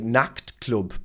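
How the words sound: The ch sound is mangled, English-style. The speaker calls it wrong. "they might say Nachtclub because they really struggle with this C H sound"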